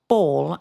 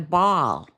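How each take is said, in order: First: The word is said in a non-Canadian accent. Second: The word is said in an exaggerated Canadian accent. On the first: "if I have to say ball" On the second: "they would go ball. See, I exaggerate"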